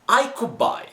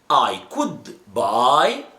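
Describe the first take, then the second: First: The words are reduced and run together. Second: Each word is pronounced separately and carefully. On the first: This is how people talk in everyday conversation. "normal street pronunciation" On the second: This is the textbook pronunciation. "the right or the academic pronunciation"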